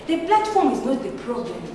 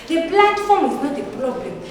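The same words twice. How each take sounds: The two takes are said the same way.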